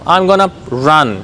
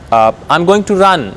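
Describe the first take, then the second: First: 'Going to' is reduced to one word, 'gonna'. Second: Each word of 'going to' is said separately.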